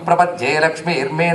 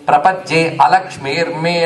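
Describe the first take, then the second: First: The words are joined and the 'a' is dropped. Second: The words are separated and the 'a' is pronounced. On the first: "కలిపేన అనాలి" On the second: "హాయిగా విడదీసుకుని"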